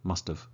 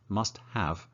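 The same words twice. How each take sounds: First: 'Have' is reduced and joined onto 'must'. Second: Both words are said fully and separately.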